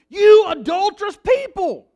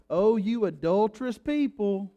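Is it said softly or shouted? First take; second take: shouted; softly. First: It is shouted loudly with exclamation. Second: It is said softly, in a mild drawl.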